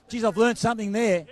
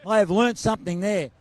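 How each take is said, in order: First: Said in the usual way. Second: Repeating it to the rep, stressing have. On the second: Shown as a demonstration. Host marvelling to the rep, pressing on have.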